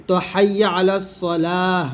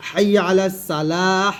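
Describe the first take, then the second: First: Slow "হাইয়া আলা সলাহ" with a heavy emphatic সদ; correct Arabic sad. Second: Slow "হাইয়া আলা সালাহ" with a light thin সিন; wrong thin seen. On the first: Teacher showing the correct সলাহ to students, slow and careful. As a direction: draw out "সলাহ" with the thick sad sound. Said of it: "সদ উচ্চারণ করলে হবে নামাজের জন্য এসো". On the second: Teacher demonstrating the wrong সালাহ as a warning, slow. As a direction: say "সালাহ" with a plain s, not the heavy sad. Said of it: "আর যদি আমি সদে সিন বলে ফেলি". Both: Shown as a demonstration.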